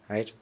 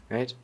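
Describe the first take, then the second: No difference in how they are said.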